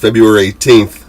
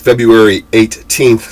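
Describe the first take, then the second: First: The date is said quickly and casually. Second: The date is said slowly with every sound clear. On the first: The speaker calls it wrong. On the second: The speaker calls it right.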